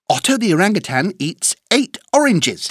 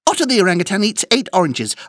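First: The sentence is said at a fast pace. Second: The sentence is said at a very fast pace. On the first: "plus vite!" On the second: "Encore plus vite!"

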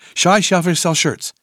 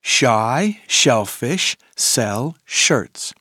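First: The phrase is said at a very fast pace. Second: The phrase is said at a moderate pace.

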